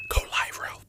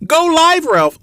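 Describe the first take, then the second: First: Soft unvoiced whisper; voicing the viewer's timid whispered request. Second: Much higher and louder shout; the viewer finally yelling the request. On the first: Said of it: "Just say". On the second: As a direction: call it out so he can hear. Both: Shown as a demonstration.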